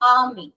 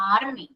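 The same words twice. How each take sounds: First: The r is silent and the vowel is long. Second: The r sound is pronounced after the vowel. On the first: The speaker calls it right. "ആ ആ ആറ് silent ആണ്" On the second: The speaker calls it wrong. "It's not ആർമി"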